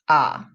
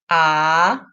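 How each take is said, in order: First: The pitch dips low. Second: The pitch rises from mid to high. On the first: "The third tone, 三声" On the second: "The second tone, 二声"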